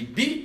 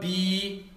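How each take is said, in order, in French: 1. La voyelle est brève. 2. La voyelle est longue. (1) "Je dis bi" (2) "je ne dis pas bi"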